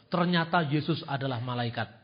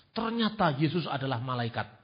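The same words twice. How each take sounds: The two takes are said the same way.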